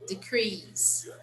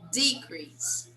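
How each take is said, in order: First: The stress is on the second syllable. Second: The stress is on the first syllable. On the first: It is used as a verb. "It's a verb" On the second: It is used as a noun. "It's a noun"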